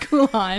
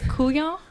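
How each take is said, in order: First: The name sounds like 'cool on'. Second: The name does not sound like 'cool on'. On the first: The speaker calls it right. "you cool off, you cool on" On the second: The speaker calls it wrong. "No, I'm just kidding"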